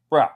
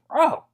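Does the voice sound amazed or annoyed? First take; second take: annoyed; amazed. First: It sounds annoyed and exasperated. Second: It sounds amazed and impressed. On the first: Someone is behaving badly and should stop. "if someone's doing something that's a bit out of pocket or a bit crazy" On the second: Someone did something impressive. "if someone's doing something like pretty amazing, you'd say, "Bro," like that"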